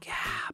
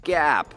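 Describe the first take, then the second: First: The word is whispered. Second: The word is said out loud.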